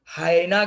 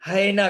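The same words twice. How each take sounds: First: हायना with a long open "haa" first syllable; हायना, broad long a; pronounced hayna. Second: हैना with a short flat "hai" first syllable; हैना, clipped first vowel; pronounced haina. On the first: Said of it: "कई लोग इसका pronunciation हायना करते हैं". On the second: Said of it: "कई लोग इसका प्रोनंसिएशन हैना करते हैं". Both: Shown as a demonstration.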